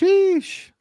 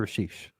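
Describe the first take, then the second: First: The name is said at a high pitch. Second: The name is said at normal pitch. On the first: The speaker calls it right. "You gotta do the high pitch though" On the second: The speaker calls it wrong. "You can't just say Rashish"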